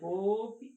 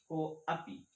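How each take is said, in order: First: The words merge with no separate 'a' vowel. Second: A short 'a' vowel is heard after 'ko'. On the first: "दोनों में अंतर है" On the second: "हम अ यहां बोल दे रहे हैं लेकिन बहुत थोड़ा सा बोल रहे हैं"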